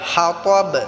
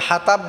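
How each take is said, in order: First: The t sound is heavy with an echo. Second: The t sound is light and plain. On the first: The speaker calls it right. "পুর করতে হবে, কলকলা করতে হবে" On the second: The speaker calls it wrong. "হাতাব বললে তা হবে, তা উচ্চারণ হবে"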